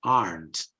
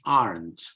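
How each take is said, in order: First: It is said with an American accent. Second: The same.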